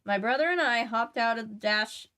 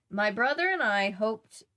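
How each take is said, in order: First: Hopped with a short o, like hop; "hopped" said as hop-t, short o as in hot; corrected hopped. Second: Hoped with a long o, like hope; "hoped" said as hope-t, rhyming with roped; misread hoped. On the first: Shown as a demonstration. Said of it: "let me try that again". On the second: Real, not acted. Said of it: "sorry, let me try that again".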